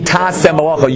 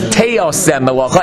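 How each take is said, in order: First: The verb is said with a short plain vowel. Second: The verb is said with an added o vowel. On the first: You will do the work yourself. "The proper Hebrew for the word should be tase melacha" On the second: You will cause the work to be done. "the wording that we say when you read the Torah is teose melacha, as if there's a yud inside there"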